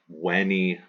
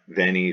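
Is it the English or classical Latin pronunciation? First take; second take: classical Latin; English. First: The v sounds are said like w. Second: The v sounds are said as in English.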